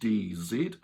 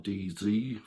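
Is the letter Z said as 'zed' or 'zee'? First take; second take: zed; zee. First: The letter Z is said as zed. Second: The letter Z is said as zee.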